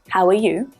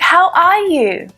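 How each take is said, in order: First: It is asked in a flat, casual tone. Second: It is asked in a warm, interested tone. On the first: The asker is not very invested in the answer. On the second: The asker really wants to hear the answer.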